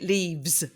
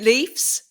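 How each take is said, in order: First: The word ends with a V sound. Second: The word ends with an F sound. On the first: "with a V" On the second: "with an F"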